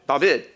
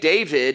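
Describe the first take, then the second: First: The name is said the Hebrew way. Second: The name is said the usual English way. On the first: The speaker calls it right. "When I was in Israel, they taught me how to properly say it" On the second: The speaker calls it wrong. "the name David is not how his name was pronounced"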